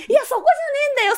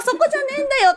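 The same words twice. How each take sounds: First: High, fast, laughing "いや、そこじゃねえんだよ", thrown off in disbelief; laughing exasperation. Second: High, laughing "そこじゃねえんだよ" repeated, still in disbelief; laughing exasperation. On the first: Speaker inwardly retorting to hotel staff missing the point, laughing high exasperation. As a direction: laugh it out high and quick, that's not the point. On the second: Speaker repeating her inner retort to the staff, high laughing exasperation. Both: Retold or imitated.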